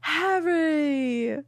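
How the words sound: It imitates Luna's voice from the audiobook.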